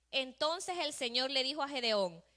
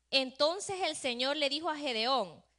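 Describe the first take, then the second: The two takes are said the same way.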